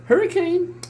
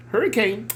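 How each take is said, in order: First: Much higher sing-song pet call. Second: Said in the usual way. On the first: Real, not acted. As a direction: sing the cat's name up high. Calling the cat again.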